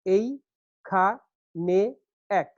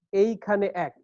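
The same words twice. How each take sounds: First: "এই খা নে এক" in four separate beats; syllable by syllable. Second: Said in the usual way. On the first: Shown as a demonstration. Teacher showing four beats make a foot, syllable by syllable. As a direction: count out এই, খা, নে, এক with pauses. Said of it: "চার মাত্রা একটা পর্ব". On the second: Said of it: "একটা পর্ব".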